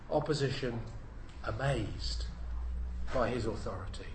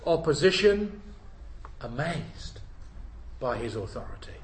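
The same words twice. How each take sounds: First: Low, soft echo of the heading; quiet repeat. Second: "Opposition" called out, then the words drop away; announced heading. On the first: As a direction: let the heading sink in softly. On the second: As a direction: proclaim the heading, opening on "Opposition". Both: Shown as a demonstration.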